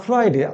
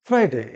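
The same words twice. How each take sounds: First: ফ্রাইডে as learners commonly say it; mispronounced Friday. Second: ফ্রাইডে as the teacher's careful model; corrected Friday. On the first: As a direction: voice the everyday local form of ফ্রাইডে. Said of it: "আমরা বলি". (ফ্রাইডে-র প্রচলিত ভুল উচ্চারণ) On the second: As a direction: model ফ্রাইডে for learners, falling at the end. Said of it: "সঠিক উচ্চারণটা কি হবে?". (ফ্রাইডে-র সঠিক উচ্চারণ দেখানো) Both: Shown as a demonstration.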